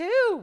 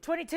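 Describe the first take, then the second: First: Higher, much louder shout of the bid; jumping on a new bid; excited bid call. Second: Said in the usual way. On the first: Real, not acted. Bid calling burst.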